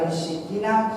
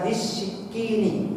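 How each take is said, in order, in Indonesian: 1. Kata itu berakhir dengan suku kata na. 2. Kata itu berakhir dengan suku kata ni. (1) "kalau dibaca di sikina salah" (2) "Harus dibaca di sikini"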